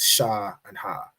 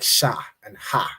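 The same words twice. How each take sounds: First: The letter sounds are said softly. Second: The letter sounds are said sharply. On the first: The speaker calls it wrong. "you might say it's sha and ha" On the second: The speaker calls it right. "the letter is a lot a lot sharper"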